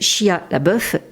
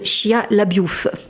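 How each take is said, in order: First: The surname ends with a plain 'beuf' sound. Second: The surname ends with a 'biouf' glide sound. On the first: Some people say it this way. "il y en a qui disent Shia la bœuf" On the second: Other people say it this way. "d'autres qui disent Shia la biouf"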